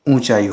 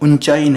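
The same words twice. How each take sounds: First: The first vowel itself is nasalized. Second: The first vowel is followed by a nasal consonant. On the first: The speaker calls it right. "चंद्र बिंदु लगता है" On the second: The speaker calls it wrong. "ऊंचाई नहीं होता है"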